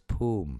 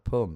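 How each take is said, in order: First: The vowel is a long oo sound. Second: The vowel is short. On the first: The speaker calls it right. "So it's like a double O" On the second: The speaker calls it wrong. "it's not Pum"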